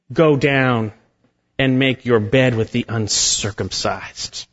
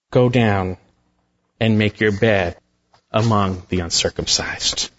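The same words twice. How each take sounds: First: Said in the usual way. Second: Low, grave and ominous pronouncement; terrifying judgment. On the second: Shown as a demonstration. Preacher voicing God's judgment on Egypt, low and grave. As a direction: drop low and let the doom sink in. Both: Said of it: "It's a terrifying statement".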